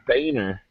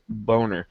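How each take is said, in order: First: The name is said with an 'ay' vowel. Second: The name is said with an 'oh' vowel. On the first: This is how the man himself says his name. "He pronounces it" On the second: This is how the spelling would literally be read. "it is phonetically pronounced as Boner"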